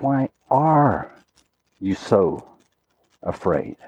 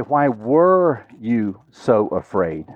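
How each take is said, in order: First: "are" stretched, then "you so afraid" low with pauses; stress on ARE. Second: "were" stretched out slowly as the key word; stress on WERE. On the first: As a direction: land on "are", then slow down and drop away. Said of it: "He says". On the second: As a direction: lean long and hard on "were". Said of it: "he didn't say". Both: Shown as a demonstration.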